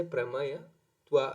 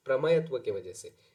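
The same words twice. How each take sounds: First: प्रमेयत्व drawn out slowly, syllable by syllable; प्रमेयत्व said very slowly and clearly; slow, deliberate term. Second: Said in the usual way. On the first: Shown as a demonstration. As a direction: spell out प्रमेयत्व slowly so the class catches it. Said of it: "spelling the term out slowly for students". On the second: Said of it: "restating the term at normal speed".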